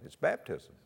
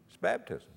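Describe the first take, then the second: First: Said in the usual way. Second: "baptism" driven up high in an insistent repeat; emphatic repeat. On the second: Real, not acted. Pastor driving the answer home to the congregation, high and insistent. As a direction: hammer "baptism" home, much higher.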